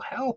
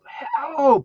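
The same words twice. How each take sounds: First: It is shouted a little louder. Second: It is shouted with full force.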